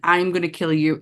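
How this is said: It is said in a dark, menacing voice. "in her possessed voice"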